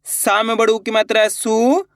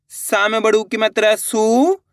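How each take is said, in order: Both takes have the same delivery.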